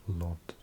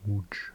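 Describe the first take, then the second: First: The name is said as a plain English 'Lod'. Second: The name is said with a Polish-style pronunciation. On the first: This is how people commonly assume it is said. The speaker calls it wrong. "I think people would pronounce that Lod" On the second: This is the actual pronunciation of the name. The speaker calls it right. "but it's actually a Łódź"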